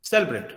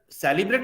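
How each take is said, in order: First: सेलिब्रेट as sel-brate, middle vowel dropped; सेलिब्रेट, the i swallowed; correct celebrate. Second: सेलिब्रेट with every vowel full, se-li-brate; सेलिब्रेट, the i sounded clearly; wrong celebrate. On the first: Teacher gives the right form: सेलिब्रेट, vowel dropped. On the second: Teacher shows the wrong way: सेलिब्रेट, every vowel full. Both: Shown as a demonstration. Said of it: "नहीं बोलते हैं".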